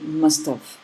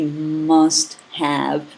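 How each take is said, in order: First: The word have is reduced and barely heard. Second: The word have is said fully and clearly. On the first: The speaker calls it right. "in regular conversation, you say must have" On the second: The speaker calls it wrong. "You don't say he must have been"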